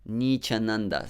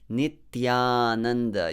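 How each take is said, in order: First: The middle consonant is a 'ch' sound. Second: The middle consonant is a dental 't' with 'y'. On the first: It sounds like a name meaning son of the fallen. The speaker calls it wrong. "native English speakers tend to pronounce it as Nichananda" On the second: It means eternal bliss. The speaker calls it right. "Your tongue has to touch your teeth"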